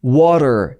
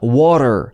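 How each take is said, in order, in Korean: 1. 가운데 t는 부드럽게 튀기는 소리입니다. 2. 가운데 t는 부드럽게 튀기는 소리입니다.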